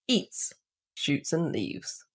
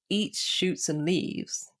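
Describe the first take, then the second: First: There is a pause after eats. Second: There is no pause after eats.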